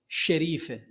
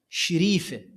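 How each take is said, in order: First: The first syllable has the vowel 'a'. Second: The first syllable has the vowel 'i'. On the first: This is not how the locals say it. "ما يقولون شريفة" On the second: This is how the original locals say it. "بكسر الشين"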